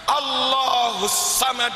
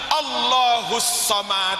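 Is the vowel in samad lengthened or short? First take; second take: short; lengthened. First: The first letter of samad is pressed, vowels short. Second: The second vowel of samad is drawn out slightly. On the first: The speaker calls it right. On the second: The speaker calls it wrong.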